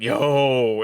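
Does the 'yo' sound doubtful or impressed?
impressed. It sounds impressed and approving. Something is really good. "and it's really good, right?"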